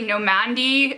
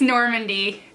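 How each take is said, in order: First: The first syllable is said without an R sound. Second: The first syllable is said with an R sound. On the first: The speaker calls it wrong. "I never saw the R in it. So I was sitting here trying to say Normandy" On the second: The speaker calls it right. "but it's Normandy"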